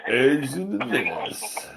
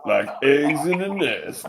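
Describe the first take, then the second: First: Slow mock of uncle. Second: Said in the usual way. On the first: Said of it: "mocking the uncle again". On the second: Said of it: "quoting the uncle".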